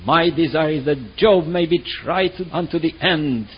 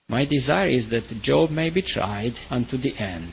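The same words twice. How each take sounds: First: The voice sounds sharp and judgmental. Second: The voice sounds warm and loving. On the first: The speaker condemns the listener. "there is a sharp voice and there is a judgmental voice" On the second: The speaker wishes the listener good through the trial. "What if Elihu said this in a loving way?"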